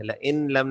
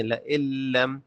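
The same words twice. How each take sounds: First: لئن لم with the n of لئن sounded separately; wrong, noon pronounced. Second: لئن لم run together as la-illam; silent noon. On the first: Teacher shows learners the mistake, audible n in لئن لم. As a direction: say la-in lam, keeping the noon audible. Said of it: "لئن لم نہیں ہے". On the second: Teacher corrects the mistake for learners, silent n in لئن لم. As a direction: drop the n of لئن into a doubled l. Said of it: "یہاں پہ جو نون ہے یہ سائلنٹ ہے". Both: Shown as a demonstration.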